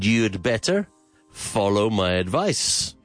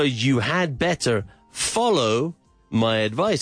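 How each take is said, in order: First: "You had" is contracted to one syllable. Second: "You had" is said as two full words.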